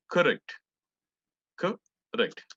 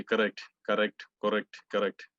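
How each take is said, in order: First: "correct" with an aspirated k, said higher and louder. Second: "correct" as said in everyday Indian English; wrong correct. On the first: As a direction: breathe out hard on the "c" of "correct". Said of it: "that H is there". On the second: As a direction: repeat "correct" the usual local way. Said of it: "But it's not right". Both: Shown as a demonstration.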